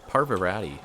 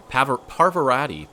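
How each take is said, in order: First: Parvarati said again plainly, par-VAR-a-ti, at normal pitch; settled repeat of a name. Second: Parvarati stumbled, started as Paver, then sounded out louder and higher; unsure first try at a name. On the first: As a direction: repeat Parvarati calmly as a check. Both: Real, not acted. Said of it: "I think that's how you say it".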